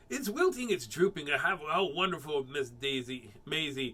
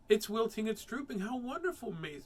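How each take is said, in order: First: It is said in Mister Grimm's voice. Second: It is not said in Mister Grimm's voice.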